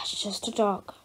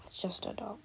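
First: Breathy whisper under the breath; a parent whispering to herself about the scared child; whispered aside. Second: Faint murmur. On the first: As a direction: whisper it so the kid won't hear. Parent aside while child panics. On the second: Repeated reassurance, very faint. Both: Acted.

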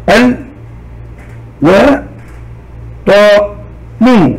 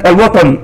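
First: "ال و طا نو" as four beats with long pauses; syllable by syllable. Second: Said in the usual way. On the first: Shown as a demonstration. Teacher breaking الوطن into sound units, "ال - و - طا - نو" slowly separated. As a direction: sound out each piece separately: "ال", "و", "طا", "نو". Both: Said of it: "ثم أحللها إلى مقاطع وحروف".

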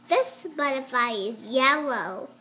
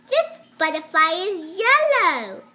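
First: Said in the usual way. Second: Loud "This butterfly is yellow", "This" punched; careful reading aloud. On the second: Shown as a demonstration. Child reads to the teacher, loud and deliberate. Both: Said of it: "You don't need to pronounce it two times".

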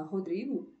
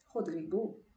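First: Said in the usual way. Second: Rodrigo with the final O stressed and lifted; French pronunciation. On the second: Shown as a demonstration. Teacher shows a foreign name à la française, Rodrigo in French pronunciation. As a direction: say Rodrigo as a French speaker would, weight on the last syllable. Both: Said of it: "pronuncie sempre à la française".

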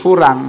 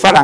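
First: ฝรั่ง with an "oo" in its first syllable, "fu-rang"; countryside-style ฝรั่ง, rounded to "foo-rang"; rural pronunciation. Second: Said in the usual way. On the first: Shown as a demonstration. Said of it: "แถวบ้านผมคนบ้านนอกเขาเรียก". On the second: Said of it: "เขาไม่เรียกฝรั่ง เขาเรียกฝรั่ง".

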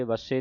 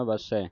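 First: ਵਸੇ ending in a close e; ਵਸੇ with a narrow final vowel; mistaken final e. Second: ਵਸੈ ending in an open ai; ਵਸੈ with a wide final vowel; correct final ai. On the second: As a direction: say ਵਸੈ as va-sai, like eh. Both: Shown as a demonstration. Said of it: "ਵਸੇ ਨਹੀਂ ਪੜ੍ਹ ਦੇਣਾ".

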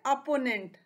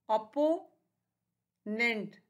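First: Said in the usual way. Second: opponent very slow, long pause before नेंट; split into syllables. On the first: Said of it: "ये क्या है". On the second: Shown as a demonstration. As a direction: stretch अपो, then a separate नेंट. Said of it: "इसके three syllables हैं". (Opponent को हिस्सों में, बहुत धीरे)

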